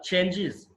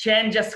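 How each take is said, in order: First: చేంజెస్ as "change-iz"; "-iz" ending. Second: చేంజెస్ as "change-ess"; wrong plural ending. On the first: Teacher correcting learners' plural, చేంజెస్ as "change-iz". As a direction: end చేంజెస్ on short i and z. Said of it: "ఇజ్". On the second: Teacher showing learners the mistake, చేంజెస్ as "change-ess". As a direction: end చేంజెస్ on open e and hissed s. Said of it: "కాదు". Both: Shown as a demonstration.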